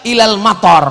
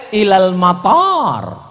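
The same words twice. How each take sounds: First: Mator diucapkan dengan vokal pendek; mator tanpa alif. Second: Mator diucapkan dengan vokal panjang; mator dengan alif. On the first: Retold or imitated. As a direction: mator seperti kata hujan. (mator dengan a pendek) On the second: Shown as a demonstration. (mator dipanjangkan seperti seharusnya) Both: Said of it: "Mestinya pakai alif".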